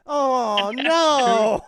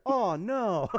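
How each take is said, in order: First: Louder, higher mock dismay; hammed-up oh no. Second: Said in the usual way. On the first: Mocking the husband's weak reaction, hammed-up. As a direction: stretch it out as a mock whine. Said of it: "It's just". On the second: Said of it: "But he's just there".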